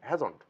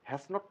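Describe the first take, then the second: First: Has and not merge into one contracted word. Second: Has and not are said as separate words. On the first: The speaker calls it right. "বলবো হ্যাজন্ট" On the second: The speaker calls it wrong. "হ্যাজ নট না বলে"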